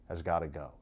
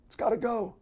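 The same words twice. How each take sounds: First: Said in the usual way. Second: Much higher, pinched and strained, mocking the coach; mock strained hoarse voice. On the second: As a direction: squeeze the line out as if straining.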